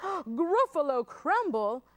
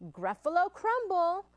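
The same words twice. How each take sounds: First: Gasp, then loud, slow disbelief; horrified Gruffalo. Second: Higher-pitched, playful storybook threat; name the dish with relish; menacing mouse. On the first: Gruffalo hears mouse will eat him, horrified. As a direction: repeat the dish in mock horror. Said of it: "the Gruffalo said". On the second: Mouse tells Gruffalo his favorite food, menacing. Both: Acted.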